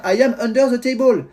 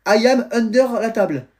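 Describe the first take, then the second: First: "table" said as English "tay-bol", higher pitch; raised French-accented English, "table" as "tay-bol"; daughter's corrected English. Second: "la table" said the French way, higher pitch; raised French-accented English ending in French "la table"; daughter's franglais sentence. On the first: Daughter proudly repeats the corrected sentence, "table" pronounced in English. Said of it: "c'est the table". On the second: Daughter practises under the table, "la table" left in French. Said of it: "table, je sais dire". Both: Retold or imitated.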